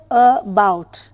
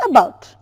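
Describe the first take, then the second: First: "about" broken in two, "uh", pause, "bout"; split, unnatural pronunciation. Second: Said in the usual way. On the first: Shown as a demonstration. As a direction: separate the first sound of "about" from "bout". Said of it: "but we don't say about". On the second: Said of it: "While pronouncing it, we say about".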